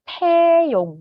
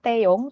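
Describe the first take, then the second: First: The first consonant has a strong puff of air. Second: The first consonant has no puff of air. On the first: The speaker calls it right. "harus pakai angin" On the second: The speaker calls it wrong. "bukan Taeyong"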